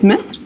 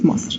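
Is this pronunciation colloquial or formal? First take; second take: formal; colloquial. First: It is said in the formal, official way. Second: It is said in the everyday colloquial way. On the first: This is the official name of the country. "the official pronunciation is Misr" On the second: This is the everyday slang name of the country. "slang language is Masr"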